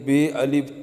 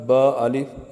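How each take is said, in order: First: The letter name is said with an Urdu accent. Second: The letter name is said with an Arabic accent. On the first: The speaker calls it wrong. "Urdu लहजा ये है" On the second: The speaker calls it right. "अरबी लहजा"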